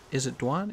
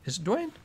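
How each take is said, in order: First: "Dwan" with an open ah, as a question; unsure pronunciation. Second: "Dwayne" with a long ay, rising high; unsure pronunciation. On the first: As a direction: try out "Dwan", rhymed with "swan". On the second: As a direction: try out "Dwayne", rhymed with "rain", as a high question. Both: Real, not acted. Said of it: "Probably saying it wrong".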